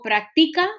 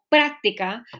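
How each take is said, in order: First: The stress is on the second-to-last syllable. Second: The stress falls before the second-to-last syllable. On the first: The speaker calls it wrong. "la mayor fuerza debe caer en la penúltima uh, sílaba, aquí, ti" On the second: The speaker calls it right. "Es, está aquí, práctica"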